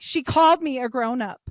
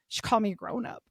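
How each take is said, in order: First: Indignant. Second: Said in the usual way. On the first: Retold or imitated.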